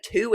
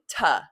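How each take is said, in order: First: To with a full oo vowel, like two. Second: Tuh with a short, unstressed vowel; reduced tuh. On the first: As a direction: say to clearly as TOO. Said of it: "instead of". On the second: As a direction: say to as a quick, soft tuh. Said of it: "if I'm saying". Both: Shown as a demonstration.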